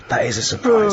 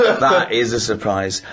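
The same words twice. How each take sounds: First: Higher, falsely polite "surprise"; mock polite surprise. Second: Slower, chuckling through the words; laughing repeat. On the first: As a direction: feign polite shock. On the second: Retold or imitated. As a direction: savour the joke while laughing. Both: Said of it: "I went".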